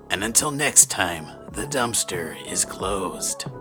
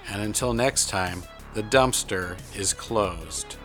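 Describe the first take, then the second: First: It is said in a put-on character voice. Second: It is said in a normal speaking voice.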